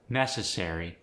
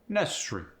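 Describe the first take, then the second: First: The vowel before the final R-Y is kept. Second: The vowel before the final R-Y is dropped.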